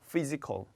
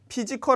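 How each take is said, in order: First: The word begins with an f sound. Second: The word begins with a p sound. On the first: The speaker calls it right. "다 F 발음이 돼야 되겠네요" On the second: The speaker calls it wrong. "피지컬 아닙니다"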